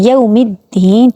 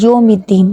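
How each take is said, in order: First: The first vowel glides as a turned 'aw'. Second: The first vowel is a plain, Urdu-style 'o'. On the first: The speaker calls it right. "इसको मोड़ना है" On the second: The speaker calls it wrong. "Urdu की तरह यौमिद्दीन"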